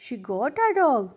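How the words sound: The voice rises at the end, as a question.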